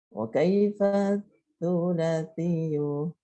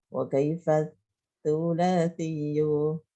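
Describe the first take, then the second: The two takes are said the same way.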